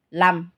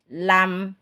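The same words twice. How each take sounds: First: The final sound is fully held and cut off. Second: The final sound is partly sustained, half flowing. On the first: The speaker calls it wrong. "bukan lam, ... Kalau ini cuma siddah" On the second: The speaker calls it right. "separuhnya mengalir"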